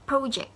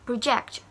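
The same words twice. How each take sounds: First: "project" said PRO-ject; weight falls on PRO in "project"; stress on first syllable. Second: "project" said pro-JECT; weight falls on JECT in "project"; stress on last syllable. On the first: Teacher repeating the noun for contrast, front-stressed "project". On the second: Teacher repeating the verb for contrast, end-stressed "project". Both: Shown as a demonstration. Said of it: "It's different, right?".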